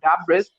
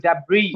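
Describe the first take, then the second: First: The word ends with an audible s sound. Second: The word ends on a vowel, no s sound. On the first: The speaker calls it wrong. "it is not Dabris" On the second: The speaker calls it right. "it is Dabri"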